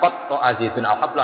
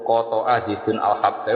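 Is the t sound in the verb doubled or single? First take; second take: doubled; single. First: The t sound in the verb is doubled. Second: The t sound in the verb is short. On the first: The rope was cut into pieces. "ngetok ngetok" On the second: The rope was cut once. "maknane ngetok tampar kitok"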